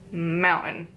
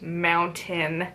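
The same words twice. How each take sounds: First: The middle T sound is dropped. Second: The middle T sound is clearly pronounced. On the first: "we just lazy our words" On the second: "instead of"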